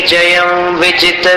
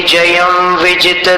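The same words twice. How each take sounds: Both takes have the same delivery.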